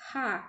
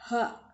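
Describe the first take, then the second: First: Thin airy H. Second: H said thick, heavy and breathy from the throat; thick Arabic H. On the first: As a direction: breathe out a light thin H. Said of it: "H ini tipis". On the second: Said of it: "Tebal ya". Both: Shown as a demonstration.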